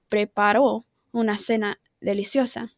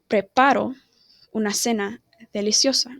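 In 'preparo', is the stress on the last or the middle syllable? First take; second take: last; middle. First: The stress is on the last syllable of preparo. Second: The stress is on the middle syllable of preparo. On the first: Someone else prepared a delicious dinner. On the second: I prepare a delicious dinner.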